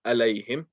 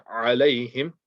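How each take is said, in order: First: "alayhim" opened on a plain "a"; ain lost. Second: "alayhim" opened with a strong throat ain; clear ain. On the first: Teacher shows what to avoid, ain dropped. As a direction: start "alayhim" like an alif, no throat sound. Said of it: "and not alayhim". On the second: Teacher shows the right reading, clear ain. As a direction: squeeze the throat on the first sound of "alayhim". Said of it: "here the ain, make sure you're reading". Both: Shown as a demonstration.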